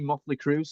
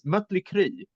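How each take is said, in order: First: The vowels are plain English vowels. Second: The vowels are rounded German umlaut vowels.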